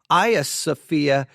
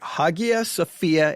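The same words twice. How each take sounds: First: The name is pronounced the Turkish way. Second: The name is pronounced the Greek way. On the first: "in uh, Turkish" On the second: "in Greek"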